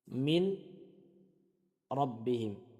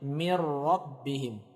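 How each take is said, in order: First: The n is heard before the r. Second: The n merges into a doubled r. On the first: "Nun sukun bertemu dengan ra" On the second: "kita baca dengan idgham menjadi huruf yang bertasydid"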